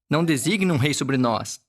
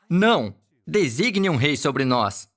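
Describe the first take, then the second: First: It runs on without a pause after the first word. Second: There is a clear break after the first word. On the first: The people ask not to be given a king. The speaker calls it wrong. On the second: The people refuse and demand a king. The speaker calls it right.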